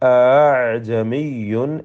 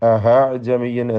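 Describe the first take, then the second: First: A softened sound between stop and vowel. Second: An h sound replaces the glottal stop. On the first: The speaker calls it right. "അത് രണ്ടിനും ഇടയിലുള്ള ഒരു ശബ്ദം കൊടുക്കണം" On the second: The speaker calls it wrong. "ചിലർക്ക് ഹാ കടന്നു വരും"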